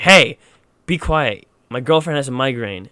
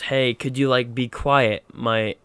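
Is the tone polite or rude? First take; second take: rude; polite. First: It is said in a rude tone. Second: It is said in a polite tone.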